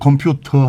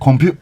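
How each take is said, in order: First: It is said in a standard British accent. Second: It is said in Cockney with the T dropped. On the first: "영국 사람은 컴퓨터 하거든요" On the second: "그쪽 사람들 T 발음 안 하니까 뭐라 하면 컴퓨터"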